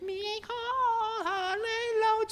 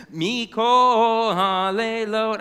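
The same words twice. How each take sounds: First: Very high, soft slow parrot squeak; squeaky parrot. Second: Slow, louder chanted line; sung, draw it out like a song; sung Hebrew line. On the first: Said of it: "squeaked the parrot". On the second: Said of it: "I continued". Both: A narrator's reading.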